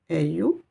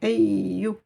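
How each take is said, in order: First: The y sound is short and single. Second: The y sound is held and doubled. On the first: The speaker calls it wrong. "Je ne dis pas You" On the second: The speaker calls it right. "j'insiste sur cette lettre"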